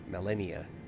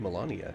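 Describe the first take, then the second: First: The name is said slowly and clearly. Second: The name is said quickly and loosely.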